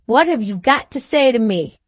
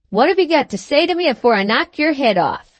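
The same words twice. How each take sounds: First: Mildly surprised, innocent echo; virtuous surprise. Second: Mildly menacing demand; threatening. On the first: Trotter answering Sam's threat, mild virtuous surprise. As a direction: repeat it as if innocently puzzled. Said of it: "with a look of virtuous surprise". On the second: Sam demanding an answer from Trotter, mildly threatening. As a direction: threaten him with understated force. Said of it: "in a threatening manner". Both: A narrator's reading.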